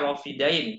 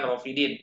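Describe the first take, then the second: First: The last syllable has the vowel 'ai'. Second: The last syllable has the vowel 'i'. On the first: The speaker calls it right. "Jadi bacanya Rofidain" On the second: The speaker calls it wrong. "bukan Rofidin"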